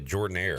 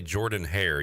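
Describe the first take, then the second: First: The second word starts without an h sound. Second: The second word starts with an h sound. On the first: The speaker calls it right. "You say Jordan Air" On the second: The speaker calls it wrong. "You don't say Jordan Hare"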